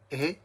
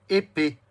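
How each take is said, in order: First: "Épée" split into é, then pé after a long pause; syllable by syllable. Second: Said in the usual way. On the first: Shown as a demonstration. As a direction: count out "Épée" in two isolated beats. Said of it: "Deux syllabes aussi". (« Épée » découpé en deux syllabes bien séparées) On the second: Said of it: "compte les syllabes".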